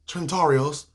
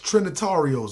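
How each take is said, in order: First: The name is said in a clipped, garbled form. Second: The name is said in its full form. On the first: The speaker calls it wrong. "It sounded like I work in a Chinese restaurant" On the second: The speaker calls it right. "Nah, it's Trinitarios"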